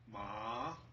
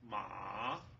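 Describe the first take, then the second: First: The pitch rises from middle to high. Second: The pitch dips low then rises. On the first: "rising tone" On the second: "falling rising tone ... go down and up"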